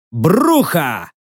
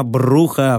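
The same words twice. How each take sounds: First: БРУХА called out as a summons, falling at the end; drawn-out hail of one person; hollered name. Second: БРУХА said low and falling, with resignation; understated, resigned address; sighed name. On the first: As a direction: call БРУХА across the grounds. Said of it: "заорал на всю сраную лечебницу". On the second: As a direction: sigh БРУХА wearily. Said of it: "вздохнул я". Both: A narrator's reading.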